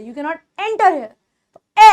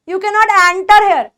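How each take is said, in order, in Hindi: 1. enter का पहला स्वर छोटा रखा जाता है। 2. enter का पहला स्वर लंबा खींचा जाता है। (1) "ए छोटी साउंड आ रही है" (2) "ऐसा नहीं बोलते"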